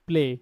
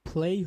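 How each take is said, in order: First: The word ends in a plain single vowel. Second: The word ends in a gliding ay vowel. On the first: The speaker calls it wrong. "আমরা normally বলি প্লে" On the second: The speaker calls it right. "Rules অনুযায়ী প্লেই হবে"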